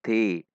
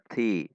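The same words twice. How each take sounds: Both takes have the same delivery.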